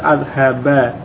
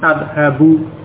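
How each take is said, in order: First: The word ends with an a vowel. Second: The word ends with a u vowel. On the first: The verb follows the particle an. "karena didahului oleh an, maka ... tandanya berubah menjadi fathah pada huruf akhir" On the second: No particle precedes the verb. "Asalnya sebelum ada an dengan dhammah"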